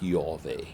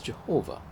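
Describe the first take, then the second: First: The name begins with a Y sound. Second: The name begins with a J sound. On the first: "it would be pronounced more like Yahweh" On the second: "One way that you might pronounce it is Jehovah"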